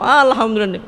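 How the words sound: It is said in a cheerful, smiling tone.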